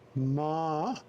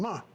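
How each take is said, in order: First: The pitch dips low then rises. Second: The pitch falls sharply from high. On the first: It means horse. "Ma is horse" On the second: It means to scold. "ma is to scold or criticize someone"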